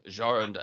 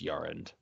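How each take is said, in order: First: The name starts with a hard J sound. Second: The name starts with a soft, Y-like sound. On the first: The speaker calls it wrong. "I was a little hard on the J there" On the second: The speaker calls it right. "It's it's Jarand"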